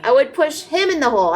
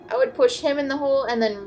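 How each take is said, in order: First: Pushed him, voice up and louder; emphatic plan. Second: Said in the usual way. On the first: Real, not acted. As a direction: stress on push, loud. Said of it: "restates his plan with force". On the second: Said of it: "says the plan again".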